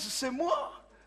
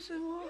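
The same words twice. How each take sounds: First: It is said firmly and with confidence. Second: It is said hesitantly, with faltering starts. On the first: The person is sure of themselves. The speaker calls it right. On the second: The person lacks self-confidence. The speaker calls it wrong.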